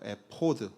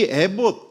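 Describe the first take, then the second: First: It is said as e-po-d, ending in d. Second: It is said as e-bot, ending in t. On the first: This is the original Hebrew form. "히브리어로 에포드라고 해요" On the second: This is the Korean form. "우리말 발음으로 에봇이라고 한 것이죠"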